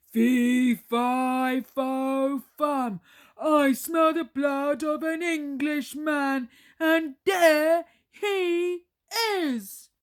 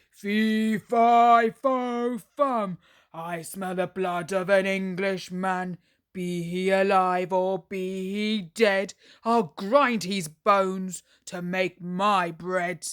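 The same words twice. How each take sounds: First: Loud, higher triumphant roar; roaring giant. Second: Loud, booming giant threat. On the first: Giant chasing Jack, loud triumphant roar. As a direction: roar as you spot your prey. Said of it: "The giant roared loudly". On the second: Hungry giant sniffing for Jack, loud booming threat. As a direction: menace the whole house with it. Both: Acted.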